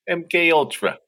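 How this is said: It is said in a different put-on voice.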